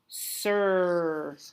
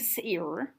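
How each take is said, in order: First: The vowel is a single 'er' sound. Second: The vowel sounds like 'eye' followed by 'er'. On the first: The speaker calls it right. "R has taken over the vowel" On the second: The speaker calls it wrong. "I'm not saying sir. Uh-uh"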